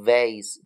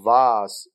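First: It is said with an American accent. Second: It is said with a British accent.

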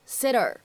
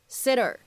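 First: The words are linked with a flapped t. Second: The words are linked with a flapped t.

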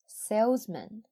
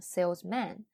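First: The last syllable has a weak reduced vowel. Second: The last syllable has a full open vowel. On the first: The speaker calls it right. "正确的是salesman" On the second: The speaker calls it wrong. "一定要注意不要念成salesman，很多同学都会发错"

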